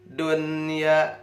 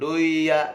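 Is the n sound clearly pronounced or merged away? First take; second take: clear; merged. First: The n sound is clearly pronounced before y. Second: The n sound is merged away and not heard. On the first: The speaker calls it right. "tapi dun dunya" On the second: The speaker calls it wrong. "jangan duya"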